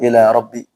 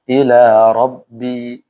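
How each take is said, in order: First: The final vowel of Rabbi is short. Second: The final vowel of Rabbi is long. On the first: The speaker calls it wrong. "enggak boleh" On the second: The speaker calls it right. "Rabbi di sini dibaca pan panjang"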